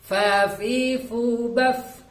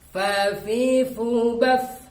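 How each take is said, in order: The two takes are said the same way.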